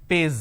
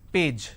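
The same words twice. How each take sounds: First: The word ends with a z sound. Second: The word ends with a j sound. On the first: The speaker calls it wrong. "lot of people replace the J with a Z, Z, page" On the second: The speaker calls it right. "the pronunciation is P, A, J, page, correct?"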